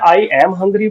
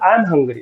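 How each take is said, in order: First: I am is said as two full words. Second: I am is contracted into one syllable.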